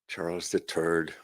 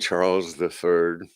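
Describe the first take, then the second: First: It is said in an Irish accent, 'third' like 'turd'. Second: It is said in a plain, non-Irish accent.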